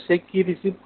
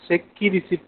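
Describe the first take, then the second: No difference in how they are said.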